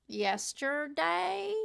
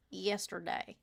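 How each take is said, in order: First: Yesterday stretched very slowly; drawn out. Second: Said in the usual way. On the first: Acted. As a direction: drag the word out. Word stretched, then repeated.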